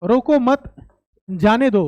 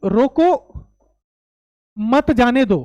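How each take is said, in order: First: रोको मत as one unit, pause, then जाने दो; pause after मत. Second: रोको, long pause, then मत जाने दो; pause after रोको. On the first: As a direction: break after मत, before जाने दो. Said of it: "रोको मत के बाद कॉमा लगा दूं". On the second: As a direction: break clearly after रोको, keep मत जाने दो together. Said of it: "रोको के बाद कॉमा लगा दूं". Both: Shown as a demonstration.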